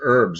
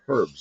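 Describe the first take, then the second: First: The word is said the American way. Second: The word is said the British way. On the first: "In the U S, they're herbs" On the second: "in England, they're herbs"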